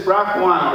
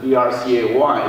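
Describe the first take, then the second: First: "brach one" said as one word plus number; BRCA1 as a word. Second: "B R C A one" said letter by letter; BRCA1 spelled out. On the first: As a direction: read "brach one" as a word, not spelled out. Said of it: "or some people pronounce it". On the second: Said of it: "some people pronounce it". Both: Shown as a demonstration.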